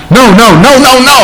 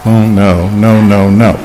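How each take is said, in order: First: High, forceful run of "no"; emphatic refusal. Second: Low, subdued string of "no"; understated refusal. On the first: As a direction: fire off every "no" high and insistent. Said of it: "is unheard of in Scripture". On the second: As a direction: drop every "no" down low, without force. Contrasting low take of the refusal. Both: Shown as a demonstration.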